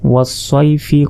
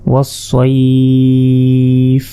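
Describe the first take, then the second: First: It ends with a short i vowel, unstretched. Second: It ends on a consonant, vowel stretched. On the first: The reciter continues without stopping. "এভাবে পড়লে কোনো টানতে হবে না।" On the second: The reciter stops at this word. "শেষের জেরের উচ্চারণ হবে না"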